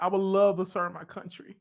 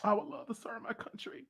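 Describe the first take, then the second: First: Said in the usual way. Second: Unvoiced whisper, choked with emotion; emotional whisper. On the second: Real, not acted. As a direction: whisper it, moved to tears. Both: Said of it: "I just got emotional".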